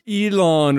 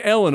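First: "Elon" with a long EE-lon; exaggerated correct name. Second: "Ellen" with a short open E; not saying Ellen. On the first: Host mocking his own accent, overcorrect "Elon" to EE-lon. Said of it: "if you wanna really get". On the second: Host owns up to his accent, "Ellen" with short E. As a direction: say "Ellen" as in the woman's name. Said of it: "my accent fucks it". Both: Shown as a demonstration.

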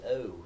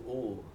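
First: The vowel "oh" in a posh accent. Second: "oh" with a Northumbrian vowel; Northumberland vowel. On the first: Showing Bunting's posh-sounding vowel, posh "oh". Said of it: "sound very posh to my ear". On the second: Contrasting the local vowel with posh, Northumbrian "oh". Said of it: "instead of". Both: Shown as a demonstration.

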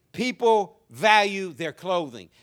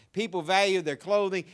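First: "value" drawn out slowly and stressed; slow emphatic. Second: Said in the usual way. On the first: Shown as a demonstration.

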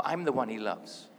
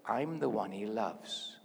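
First: A firmer, brisker model line to repeat; stronger affirmation. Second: Slow, low model line for others to repeat; measured, lower-pitched affirmation; deliberate declaration. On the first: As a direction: say it firmly, as a correction. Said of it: "say it a bit stronger". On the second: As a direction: say it slowly as a personal affirmation. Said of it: "I'm gonna say it". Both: Shown as a demonstration.

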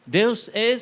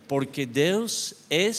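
First: Deus é, much higher and louder; emphatic repeat. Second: Said in the usual way. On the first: Acted. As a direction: proclaim Deus é with full force. Repeated sermon climax.

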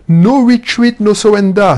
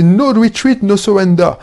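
First: Put-on motto in thick French-accented English, punched out louder. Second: Put-on thick French accent. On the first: Entrepreneur declaiming his motto to the viewer, louder in heavy French accent. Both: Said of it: "mon accent à couper au couteau".

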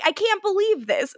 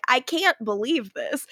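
First: Higher-pitched, understated incredulity; mild disbelief. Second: Understated disbelief at usual pitch; muted disbelief. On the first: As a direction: quote her disbelief a little higher, without yelling. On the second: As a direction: play the disbelief small, no yelling. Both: Retold or imitated. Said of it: "her disbelief is like".

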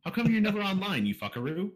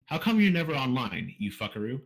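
First: "How come you're never online" pitched much higher and louder; mock demand, "fuckaroo" lifting at the end; read as a question. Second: A light stab at a character voice; Aragon. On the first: Host rereads the listener's line as instructed, as an exaggerated question. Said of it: "Read it as a question". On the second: Acted. Host reads a listener's question as Aragon, lightly imitated. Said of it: "try to do this in, like, an Aragon voice".

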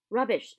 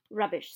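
First: Louder scornful Rubbish, falling; loud dismissal. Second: Hagrid dismissive. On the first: Acted. Hagrid brushing off Harry's claim, loud dismissal. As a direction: bark Rubbish down flat. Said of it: "said Hagrid again". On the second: A narrator's reading. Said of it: "said Hagrid".

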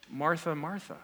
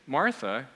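First: Softer, tender doubled name; affectionate repetition. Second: Said in the usual way. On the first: Retold or imitated. Jesus addressing Martha by name, gently affectionate. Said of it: "expressing emphasis and, and affection". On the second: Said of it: "he doesn't just say".

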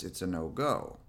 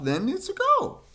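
First: Low, soft, strict refusal; stern on-vest voice. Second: Very high, excited squeal on "go"; playful off-vest voice. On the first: Dog owner on the rules with vest on, stern. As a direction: lay down the rule, low and final. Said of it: "my on-vest voice is very stern and strict and low". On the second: Dog owner when vest comes off, playful and excited. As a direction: leap up high, giving the dog permission to play. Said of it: "that's definitely my off-vest voice". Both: Shown as a demonstration.

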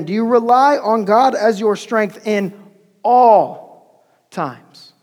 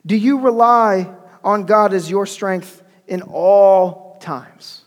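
First: "all" set apart, long and forceful; heavy stress on ALL. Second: "all" drawn out, pause before "times"; slow question, lingering on "all"; first emphasis on all. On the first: Preacher repeats the question to his church, hammering "all". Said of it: "let me italicize and emphasize that word again". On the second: Preacher asks the church about relying on God, stretching "all". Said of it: "emphasize that word again". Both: Shown as a demonstration.

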